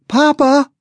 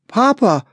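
First: Put-on even higher, louder child's plea; a little boy crying out for papa, urgent; boy reaching his father, louder and higher; desperate child's cry. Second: Put-on high, loud little boy calling for his papa; a small boy calling out, pleading; boy runs to his father, calling high; pleading child's call. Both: A narrator's reading. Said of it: "Bean entreated".

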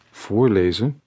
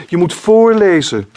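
First: Said in the usual way. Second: Put-on child insisting. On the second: A narrator's reading. Child demands reading aloud.

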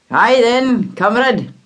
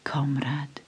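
First: A hint of a dry father, louder; gruff father. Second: Soft, unvoiced whisper of recognition. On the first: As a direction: brush it off quickly like a tired dad. Father greets stranger. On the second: A narrator's reading. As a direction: breathe the word comrade almost silently. Narrator whispers the greeting.

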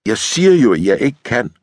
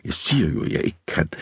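First: Higher, insistent refusal; fed-up, full-voiced insistence; exasperated protest. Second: Hushed protest fading to whisper; soft, husky insistence; hoarse whisper. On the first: Woman refuses lieutenant's advances, exasperated. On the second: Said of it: "hvisker hun hæst". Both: A narrator's reading.

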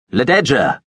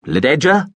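First: Louder, insistent call of her name, falling at the end; echoing call. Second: A loud, high, searching call of her name; sudden call. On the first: Veppers calling for the girl again, insistent loud call. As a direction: call her name so it rings through the space. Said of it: "His voice, her name, echoed". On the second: Veppers calling out for the hidden girl, loud questioning call. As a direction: call out suddenly into the dark theatre, rising like a question. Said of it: "he called out suddenly". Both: Acted.

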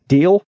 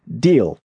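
First: "Deal" pitched high with a rising tune; questioning DEAL. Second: "Deal" at usual pitch with a falling tune; agreeing DEAL. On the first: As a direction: ask "Deal" as an offer, voice lifting. Offer, then the koala's acceptance. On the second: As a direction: confirm "Deal" as settled, voice dropping. Koala accepts the offer. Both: Acted.

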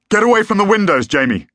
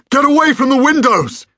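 First: High, loud warning shout; urgent shout. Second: Very high, loud full bellow. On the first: Father bursting in to warn Jamie, urgent shout. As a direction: shout an order across the room. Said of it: "he shouted". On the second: Father as the window explodes, desperate bellow. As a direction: bellow it as an emergency order. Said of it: "bellowed Julian again". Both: A narrator's reading.

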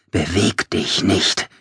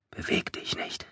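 First: Slow, voiced, deliberate words; insistent command. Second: Barely audible whisper; whispered command. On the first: Narrator wills the Hollow still, slow and insistent. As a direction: press each word out slowly. Command repeated more forcefully. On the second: Narrator wills the Hollow still in a faint whisper. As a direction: whisper it under your breath. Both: A narrator's reading.

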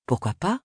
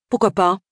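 First: Mister John's easy reply, softer, rising on pas; a relaxed man turning the question back; the hairdresser's voice. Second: Agatha's reply, higher and louder, falling on pourquoi; a brisk decisive woman shrugging yes. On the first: Hairdresser answers why Evesham. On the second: Agatha accepts the haircut offer. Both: A narrator's reading.

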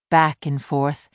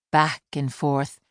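Both takes have the same delivery.

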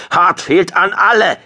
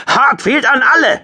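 First: High, loud, strained call; croaked urgent call. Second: Very high, loud shout; screamed call. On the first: Shocked squadron leader to all ships, croaked shout. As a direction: force out an urgent call over the com. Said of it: "krächzte er". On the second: Squadron leader to all ships in chaos, screaming. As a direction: yell over the chaos on the com. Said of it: "schrie Hartfield". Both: A narrator's reading.

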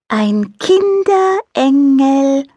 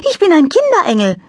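First: Slow, overly clear angel voice; over-distinct. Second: High, light angel voice; little angel voice. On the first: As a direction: spell out Kinderengel slowly as if to a slow child. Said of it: "Bömmelchen sprach überdeutlich". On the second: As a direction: play a cheerful little angel. Angel character voice. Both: A narrator's reading.

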